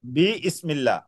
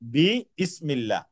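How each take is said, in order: The two takes are said the same way.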